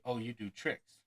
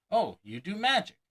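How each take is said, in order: First: Said in the usual way. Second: High, loud delighted "Oh, you do magic"; an impressed layperson gushes, brighter and louder; exclaiming layperson. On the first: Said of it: "Few will say". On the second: Retold or imitated. Layperson learning of the talent, exclaiming in delight. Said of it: "they'll likely exclaim".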